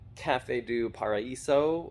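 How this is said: It is said with an American accent.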